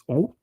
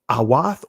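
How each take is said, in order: First: It is said in the modern Israeli pronunciation. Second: It is said in the ancient Hebrew pronunciation. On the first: "in the Israeli pronunciation is O" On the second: "but in the ancient Hebrew is awath"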